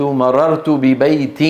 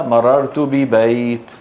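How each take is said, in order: First: مررت ببيت slowly, ending bi-baytin; connected form. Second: مررت ببيت drawn out, ending on a bare t; pausal form. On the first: Teacher shows the connected form, ببيت as bi-baytin. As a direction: sound the tanween -in at the end of ببيت. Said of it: "في الوصل، في الوقف". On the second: Teacher shows how Arabs stop, ببيت as bi-bayt. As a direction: stretch ببيت and stop without the -in. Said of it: "يقفون عليها". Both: Shown as a demonstration.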